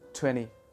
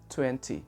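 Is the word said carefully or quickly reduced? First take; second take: quickly reduced; carefully. First: The word is said quickly with reduced sounds. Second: The word is said carefully with every sound.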